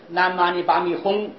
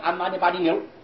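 First: The mantra ends with a 'hong' sound. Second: The mantra ends with a 'niu' sound. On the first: The speaker calls it right. "这个念轰" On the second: The speaker calls it wrong. "你念错了"

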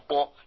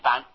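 First: The syllable is pronounced 'bo'. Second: The syllable is pronounced 'ban'. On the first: The speaker calls it right. "念波" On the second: The speaker calls it wrong. "不念般"

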